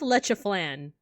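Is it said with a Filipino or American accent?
American. It is said with a thick American accent.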